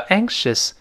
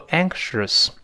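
First: The final syllable has a plain vowel, no r-coloring. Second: The final syllable has a curled, r-colored vowel. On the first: The speaker calls it right. "叫anxious" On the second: The speaker calls it wrong. "而不要读anxious"

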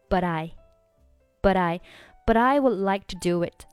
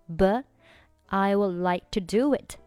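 First: The t of 'but' runs into 'I'. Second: The final t of 'but' is not sounded. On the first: "选择but 和I 连读成" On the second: "这里的but 你可以选择末尾不发音"

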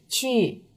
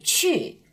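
First: The pitch stays level without a clear drop. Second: The pitch drops quickly from high to low. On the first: The speaker calls it wrong. "不规范的呢是去、去、去，听上去呢很平" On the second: The speaker calls it right. "规范的呢是去"

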